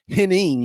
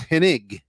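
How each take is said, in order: First: The name ends with an 'ing' sound. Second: The name ends with an 'ig' sound. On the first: The speaker calls it wrong. "People still call him Hen- Henning" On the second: The speaker calls it right. "and it's Hennig"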